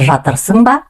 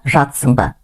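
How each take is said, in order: First: Every syllable of the word is fully pronounced. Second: The middle sounds are swallowed, not pronounced. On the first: "Пишется жатырсың ба" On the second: "две буквы «ы» и «р» как будто проглатываем"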